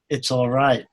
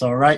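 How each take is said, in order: First: It is said in a warm, sympathetic tone. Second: It is said in a bitter, angry tone. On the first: The speaker genuinely wishes the other person well. "a genuine, sympathetic" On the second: The speaker resents the other person. "not an angry, you know, kind of wasted my precious time"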